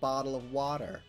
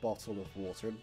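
First: The t sounds are said like d. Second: The t sounds are said as clear t. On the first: "They replace all the T's with D's" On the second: "Americans don't say bottle of water"

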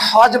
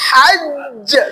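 First: The final consonant is single and short. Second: The final consonant is doubled and held long. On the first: The speaker calls it wrong. "আমরা হজ বলি না" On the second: The speaker calls it right. "এই হজে কিন্তু তাসদীদ দেওয়া আছে"

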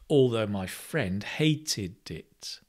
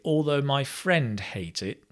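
First: The verb's past-tense ending is clearly pronounced. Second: The verb's past-tense ending is not pronounced. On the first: It clearly refers to the past. The speaker calls it right. "What it should be is" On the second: It sounds like the present tense. The speaker calls it wrong. "So I'm not pronouncing the ED"

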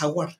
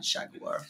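First: It is said with an American accent. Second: It is said with a British accent.

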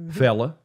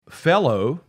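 First: The word ends in an uh sound. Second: The word ends in an oh sound. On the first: "It's just fella" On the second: "as in a guy or dude"

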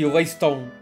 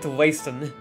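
First: The name is said with a Portuguese pronunciation. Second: The name is said with an English pronunciation. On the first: "in Portuguese it would be Leiston" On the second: "I've been calling it Leiston"

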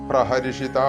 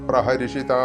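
The two takes are said the same way.

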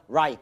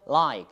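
First: The L sound is plain and dull. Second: The L sound is bright and clear. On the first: The speaker calls it wrong. "그냥 like 하시면 안 됩니다" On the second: The speaker calls it right. "밝게 나오셔야 됩니다"

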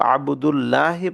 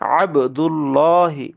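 First: The l sound is light and thin. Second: The l sound is heavy and thick. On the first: The speaker calls it wrong. "যদি ভুলবশত কেউ আবদুল্লাহি পড়ে তাহলে ভুল হবে" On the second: The speaker calls it right. "এটাকে পড়তে হবে আবদুল্লাহি"

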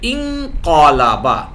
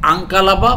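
First: The word starts with an 'i' vowel. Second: The word starts with an 'a' vowel. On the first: The speaker calls it right. "জের দিয়ে পড়তে হবে বা কাসরা দিয়ে পড়তে হবে" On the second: The speaker calls it wrong. "Not"

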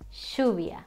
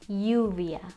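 First: The ll is said like sh. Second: The ll is said like the y in yo. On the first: "The other one is like saying shh" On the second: "One of them is E, for example, yo"

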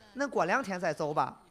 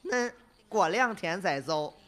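First: The phrase is spoken at a normal pace. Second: The phrase is spoken slowly and drawn out. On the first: It is the translated version.

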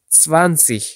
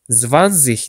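First: The word begins with a ts sound. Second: The word begins with a plain z sound. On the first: The speaker calls it right. "T, S sesi çıkartmaya çalışmanız gerek" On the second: The speaker calls it wrong. "zwanzig demek yerine"

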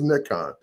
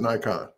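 First: Nikon is said the international way. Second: Nikon is said the American way. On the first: The speaker calls it right. "everywhere else in the world is Nikon" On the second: The speaker calls it wrong. "we in the United States pronounce it Nikon"

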